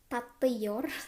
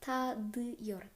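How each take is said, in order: First: The consonant before the ending is a t sound. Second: The consonant before the ending is a d sound. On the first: The speaker calls it wrong. "harusnya tatıyor, tatıyor, kagok banget ya" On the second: The speaker calls it right. "Ini dibacanya jadi tadıyor"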